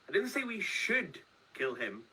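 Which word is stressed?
should. The stress is on "should".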